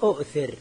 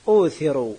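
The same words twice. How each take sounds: First: أؤثر said with both hamzas, a glottal catch after u; original form. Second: أوثر said with a long u, the second hamza gone; changed form. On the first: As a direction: say أؤثر as u'thir, softer and lower. (أؤثر بهمزتين ظاهرتين، بصوت أخفض) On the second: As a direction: say أوثر as uuthir, no catch after the first vowel. (أوثر بواو مدية دون همزة ثانية) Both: Shown as a demonstration. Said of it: "أصله".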